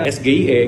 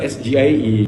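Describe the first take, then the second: First: The letters get their Indonesian names. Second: The letters get their English names. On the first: The speaker calls it right. "huruf-hurufnya itu menggunakan huruf bahasa Indonesia" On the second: The speaker calls it wrong. "jadi bukan"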